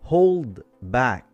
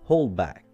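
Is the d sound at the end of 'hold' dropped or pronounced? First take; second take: pronounced; dropped. First: The d at the end of hold is pronounced. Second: The d at the end of hold is dropped.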